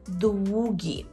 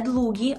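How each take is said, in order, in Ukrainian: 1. Другий приголосний — звук w. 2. Другий приголосний — звук l. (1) "а «двугі»" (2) "не «длугі»"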